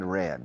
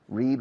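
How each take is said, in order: First: The vowel is short, like 'red'. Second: The vowel is long, like 'reed'. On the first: It is the past participle. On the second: It is the present tense.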